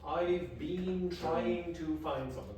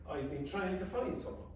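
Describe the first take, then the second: First: Every sound is pronounced fully and carefully. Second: Sounds are reduced or dropped between the words. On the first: The speaker calls it wrong. "You don't really say that" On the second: The speaker calls it right. "You say"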